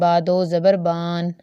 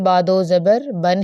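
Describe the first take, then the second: First: The last syllable's vowel is drawn out long. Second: The last syllable's vowel is kept short. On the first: The speaker calls it wrong. "ऐसा ना हो कि ... आप उसे पढ़ें" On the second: The speaker calls it right. "यानी लंबा ना करें"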